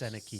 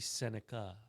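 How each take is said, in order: First: The name ends with an 'ee' sound. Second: The name ends with an 'uh' sound. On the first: The speaker calls it wrong. "not Seneki" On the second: The speaker calls it right. "It's supposed to be Seneca"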